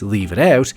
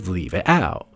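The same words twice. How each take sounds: First: It is said without a Cockney accent. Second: It is said in a Cockney accent.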